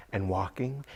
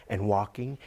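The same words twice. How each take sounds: The two takes are said the same way.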